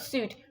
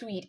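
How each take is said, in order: First: It is said with no 'w' sound, like suit. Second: It is said with a 'w' sound, like sweet. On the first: The speaker calls it wrong. "It's not suit" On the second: The speaker calls it right. "it's pronounced as sweet"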